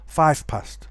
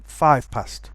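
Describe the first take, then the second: First: Five ends with a voiceless f sound. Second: The same.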